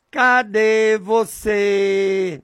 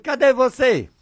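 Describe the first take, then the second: First: Slow, sustained calling with long held vowels; long drawn-out call. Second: Higher-pitched, brief calling question; short raised call. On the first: Preacher shows listeners how he calls on God, drawn-out call. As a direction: call out to God, stretching each syllable slowly. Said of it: "Eu falo assim, desse jeito". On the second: Preacher shows listeners how he asks God, short raised call. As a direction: call out higher, without stretching it. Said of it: "Desse jeito". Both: Shown as a demonstration.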